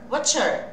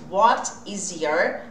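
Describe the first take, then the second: First: The words are contracted and linked together. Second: Each word is said separately and fully. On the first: "treinando com esse som grudado" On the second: "toda vez que você quiser perguntar what is your"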